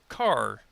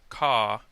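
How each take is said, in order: First: The R at the end is pronounced. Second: The R at the end is dropped.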